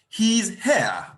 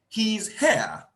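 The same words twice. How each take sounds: No difference in how they are said.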